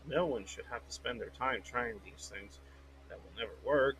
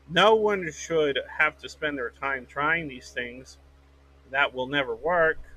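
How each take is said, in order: First: It is read flatly, without exclamation. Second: It is read emphatically, like an exclamation.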